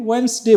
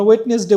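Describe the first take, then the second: First: ওয়েডনেসডে as two syllables, "WENS-de"; correct pronunciation. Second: ওয়েডনেসডে as "WET-nes-de", three syllables; wrong spelling pronunciation. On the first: Teacher answering own question for learners, silent-D pronunciation. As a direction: drop the D in ওয়েডনেসডে, saying "wens-de" emphatically. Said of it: "but আমরা এখানে কি বলি?". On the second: Teacher showing learners what not to say, sounding the silent letters. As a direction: pronounce every written letter in ওয়েডনেসডে, loudly, "wet-nes-de". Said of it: "আমরা ওয়েডনেসডে বলি না". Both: Shown as a demonstration.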